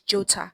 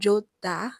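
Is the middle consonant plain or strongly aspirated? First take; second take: aspirated; plain. First: The middle consonant is intensified and strongly aspirated. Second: The middle consonant is plain and soft. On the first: The speaker calls it right. "it is jota" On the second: The speaker calls it wrong. "it's not jota"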